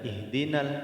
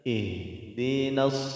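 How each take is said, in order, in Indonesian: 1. Bunyi L terdengar setelah ihdina. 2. Huruf L melebur ke dalam bunyi S. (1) "Tidak dibaca ihdinal" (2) "tapi ihdinas sira"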